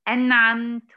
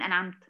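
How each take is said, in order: First: The n sound has a normal length. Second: The n sound is cut very short. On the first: The speaker calls it right. "يعني أقول إيه؟" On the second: The speaker calls it wrong. "ولا تنقص في زمن النون"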